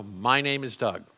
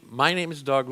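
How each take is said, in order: First: Firm, deliberate, slower statement of the name; with gusto. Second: Said in the usual way. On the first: Shown as a demonstration. Coach shows Doug how to state his name with gusto. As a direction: say it like you own it. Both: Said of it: "and say with gusto".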